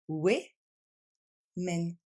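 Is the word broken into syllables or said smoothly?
broken. The word is split into separate syllables. "On retrouve deux fois le son et"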